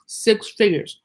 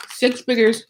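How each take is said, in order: First: Talking while crunching ice; words around a mouthful of ice. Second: Said in the usual way. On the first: Real, not acted. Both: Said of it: "excuse me, I'm crunching".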